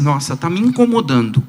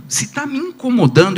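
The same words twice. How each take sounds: First: Said in the usual way. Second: "incomodando" lifted high with a rising end; rising question tune. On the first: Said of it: "eu olho e falo assim". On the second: Shown as a demonstration. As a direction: pitch "incomodando" up high and let it rise.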